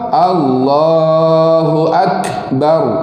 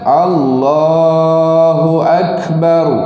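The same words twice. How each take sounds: First: The k has a strong, exaggerated breathy release. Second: The k has a slight breathy release. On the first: The speaker calls it wrong. "Kalau yang melampau" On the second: The speaker calls it right. "Kalau ada yang betul, yang tepat, yang fasih"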